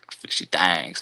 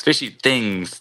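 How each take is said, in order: First: "Thangs" with an A vowel, rhyming with "bangs"; playful drawled pronunciation. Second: Said in the usual way. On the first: Shown as a demonstration. Host joking on a cool guy's channel name, drawled "Thangs". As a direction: say "Thangs" for "Things", vowel opened to A. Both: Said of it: "to be exact".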